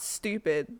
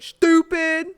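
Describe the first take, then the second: First: The word is said plainly, without extra force. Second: The word is said with strong, forceful emphasis. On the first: It is a mild remark. "not stupid" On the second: It is meant to hurt. "Like somebody put some emphasis in it"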